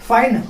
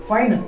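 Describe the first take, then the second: Both takes have the same delivery.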